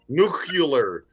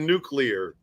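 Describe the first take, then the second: First: The word is said as new-cue-lar. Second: The word is said as new-clear. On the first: This imitates someone who could not say the word. The speaker calls it wrong. "He always said nuclear" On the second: This is the usual way to say the word. The speaker calls it right. "instead of nuclear"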